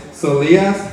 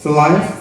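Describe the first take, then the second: First: Solias said as "suh-LEE-us"; mispronounced name. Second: Solias? said as "suh-LIE-us", rising; Solias? repeated with a long i sound; corrected name. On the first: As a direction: Solias with a short ee in the middle. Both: Real, not acted.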